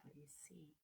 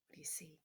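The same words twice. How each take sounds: First: Soft whispered question, much quieter. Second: Said in the usual way. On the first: Acted. Teacher whispering a question to her students, hushed. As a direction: lean in and whisper it.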